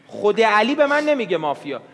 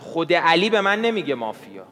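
First: Higher, more forceful restatement of "خود علی به من نمیگه مافیا"; insistent repeat. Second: Said in the usual way. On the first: Real, not acted. Player defending himself to Iman, insistently repeating "خود علی به من نمیگه مافیا". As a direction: press "خود علی به من نمیگه مافیا" home at a raised pitch.

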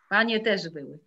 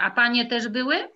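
First: Falling statement, stress on "Panie"; calm falling answer; confirming statement. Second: Rising question on "były", quick and bright; playful rising question; surprised question. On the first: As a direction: settle it, "Panie też były." with weight on "Panie". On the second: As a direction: ask "A panie też były?" with a lifted "były". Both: Shown as a demonstration.

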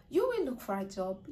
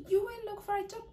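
First: Said in the usual way. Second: You lifted much higher, pressing the warning; repeated with emphasis. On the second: Shown as a demonstration. Coach warning job seekers that a bad video costs them, emphatic high repeat. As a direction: say You will look for a job again, pitched up high to drive it home.

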